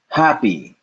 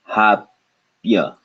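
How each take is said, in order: First: The word ends with an 'ee' sound. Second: The word ends with a 'ya' sound. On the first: This is the normal English pronunciation. "the Y in this is pronounced like E" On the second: This is how Hindi spelling rules would read it. "if we had to pronounce these using Hindi rules"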